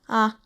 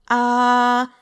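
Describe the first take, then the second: First: The pitch is short, light and unmarked. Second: The pitch stays high and level. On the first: "that fifth tone I talked about" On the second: "First tone"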